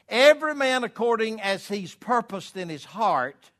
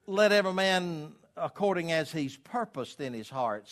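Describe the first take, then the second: First: Booming higher, louder verse reading; scripture read with force. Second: Said in the usual way. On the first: Acted. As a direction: read it high and loud like preaching from the pulpit. Preacher reads verse aloud.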